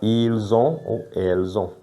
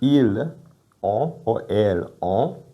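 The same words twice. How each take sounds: First: The final s links to the next vowel. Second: The words are said separately without a linking sound. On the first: The speaker calls it right. "we say" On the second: The speaker calls it wrong. "Instead of saying"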